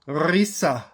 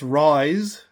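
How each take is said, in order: First: The word ends with an extra vowel sound. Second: The word ends on the s sound. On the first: This is an older pronunciation. "At one time it was pronounced Risa" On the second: This is the modern pronunciation. "pronounced rise with a silent E"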